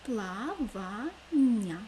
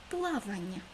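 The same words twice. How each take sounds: First: Плавання very slow, louder, split into three beats; syllable by syllable. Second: Said in the usual way. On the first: Shown as a demonstration. Teacher spelling out syllables of плавання for pupils, slow and loud. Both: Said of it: "У слові плавання три склади".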